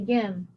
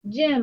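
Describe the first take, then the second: First: The word begins with a hard G sound. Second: The word begins with a soft J sound. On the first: The speaker calls it wrong. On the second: The speaker calls it right.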